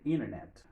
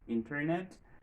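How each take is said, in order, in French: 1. Le t après le n ne se prononce pas. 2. Le t après le n se prononce clairement. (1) "il y a même dit Internet" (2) "soit dit Internet"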